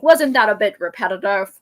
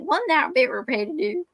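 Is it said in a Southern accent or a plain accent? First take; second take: plain; Southern. First: It is said in the speaker's usual accent. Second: It is said in a Southern mountain accent.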